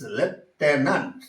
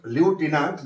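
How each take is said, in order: First: The stress is on the second syllable. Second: The stress is not on the second syllable. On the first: The speaker calls it right. "So accent falls on the second syllable" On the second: The speaker calls it wrong. "That is that is not lieutenant"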